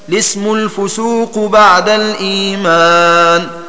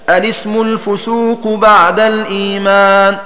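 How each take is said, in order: First: The phrase starts directly with the L sound. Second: The phrase starts with a short vowel before L. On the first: "ولك بدؤها باللام" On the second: "فلك بدؤها بهمزة الوصل"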